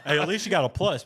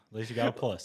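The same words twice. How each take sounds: First: Laughing. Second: Said in the usual way. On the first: Real, not acted.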